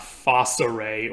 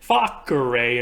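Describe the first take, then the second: First: The c is pronounced like an S. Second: The c is pronounced like a K. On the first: The speaker calls it wrong. "and not facere or something like that" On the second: The speaker calls it right. "They always sound like a K and not an S, and that's why I'm pronouncing it facere"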